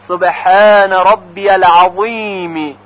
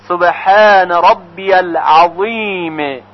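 The two takes are said the same way.

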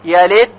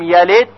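First: The final d is faint and barely heard. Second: The same.

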